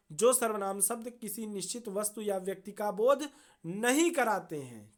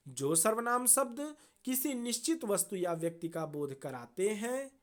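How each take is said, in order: First: नहीं set off with a firm, raised emphasis; corrective stress on नहीं. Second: Said in the usual way. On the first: Real, not acted. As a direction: lean on नहीं to correct the sentence. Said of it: "यहाँ पे गलत छपा हुआ है". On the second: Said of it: "वो, sorry".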